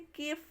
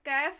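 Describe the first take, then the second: First: The vowel is closer, like in 'day'. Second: The vowel is open, like in 'cat'. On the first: The speaker calls it right. "केफ पढ़ेंगे" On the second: The speaker calls it wrong. "कैफ नहीं पढ़ेंगे"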